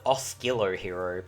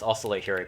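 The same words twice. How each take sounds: First: The first word does not sound like 'oscillation'. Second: The first word sounds like the start of 'oscillation'. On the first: The speaker calls it wrong. "I used to call it" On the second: The speaker calls it right. "it actually is Oscillo Hero because it's um, based off the word oscillation"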